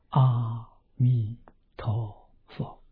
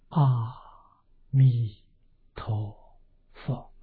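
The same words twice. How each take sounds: First: The phrase is said quickly and urgently. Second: The phrase is said slowly and drawn out. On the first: "我们就加紧念，你就这样念法" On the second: "这一声佛号要念得缓慢一点"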